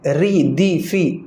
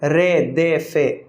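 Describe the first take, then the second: First: The vowels are pure 'ee' sounds. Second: The vowels are 'ay' sounds. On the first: The speaker calls it right. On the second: The speaker calls it wrong.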